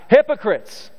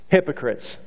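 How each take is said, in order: First: It is shouted loudly, like screaming at a crowd. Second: It is said calmly, as part of a reading.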